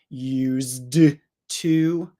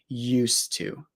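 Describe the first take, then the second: First: The D sound before the T is pronounced. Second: The D sound blends away into the T. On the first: The speaker calls it wrong. "You don't need to say used to" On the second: The speaker calls it right. "they usually connect, and we really just hear the T"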